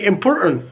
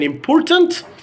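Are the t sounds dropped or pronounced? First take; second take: dropped; pronounced. First: The t sounds are dropped. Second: The t sounds are clearly pronounced. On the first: "we have deleted the the two T's" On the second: "instead of saying important"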